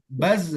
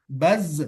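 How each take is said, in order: No difference in how they are said.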